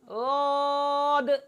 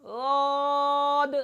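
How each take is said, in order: First: The first consonant is soft, made with the tongue's side. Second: The first consonant is soft, made with the tongue's side.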